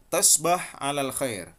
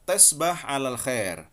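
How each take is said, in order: Both takes have the same delivery.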